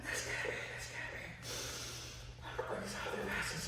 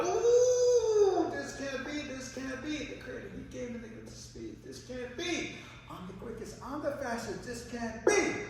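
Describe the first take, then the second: First: Acted worn-out, voiceless panting; spent, barely voiced muttering of disbelief; tired rabbit. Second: High-pitched, incredulous rabbit voice; boastful rabbit refusing to believe it; rabbit in disbelief. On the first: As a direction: gasp it out as an exhausted rabbit. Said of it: "tired. He's all like that". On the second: Acted. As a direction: open on a loud high hoot, then protest in a high voice. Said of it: "The rabbit goes".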